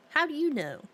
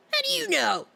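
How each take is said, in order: First: Said in the usual way. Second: Much higher, louder squawked question; mock high-pitched outcry. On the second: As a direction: squeal it in playful outrage.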